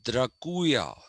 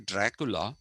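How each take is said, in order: First: The name ends with a 'lia' sound. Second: The name ends with a plain 'la' sound. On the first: This is the original form of the name. The speaker calls it right. "it was Draculia, not Dracula" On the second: This is the common everyday form of the name. The speaker calls it wrong. "we say Dracula"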